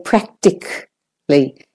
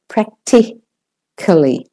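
First: Practically with the I dropped, as "prac-tic-ly"; I left out. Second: Practically slowly, syllable by syllable, "prac-ti-ca-lly"; fuller pronunciation. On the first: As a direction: say "practically" short, leaving the I out. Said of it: "So they say practically". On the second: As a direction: sound out the schwa in "practically", broken into parts. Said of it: "most people say practica-, practically". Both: Shown as a demonstration.

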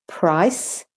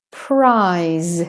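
First: "price" with a short vowel and hissed s; teacher's clear "price" with final s; voiceless S ending. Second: "prize" with a long vowel and buzzing z; teacher's drawn-out "prize" with final z; voiced Z ending. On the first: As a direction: end "price" on an unvoiced s. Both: Shown as a demonstration. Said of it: "when the S says S or the S says Z".

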